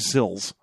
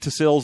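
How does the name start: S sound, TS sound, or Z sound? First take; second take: S sound; TS sound. First: The name begins with a plain S sound. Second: The name begins with a pronounced T before S. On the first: "We don't know if that T is silent or not" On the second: "We don't know if that T is silent or not"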